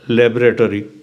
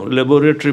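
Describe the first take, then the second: First: The word is said in an American way. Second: The word is said in a British way. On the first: "America में जाओ क्या बोलेगे पता है?" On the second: "लेबोरेटरी बोलते हैं ना"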